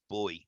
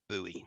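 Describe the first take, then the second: First: It is said the British way, like boy. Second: It is said the American way, like boo-ee.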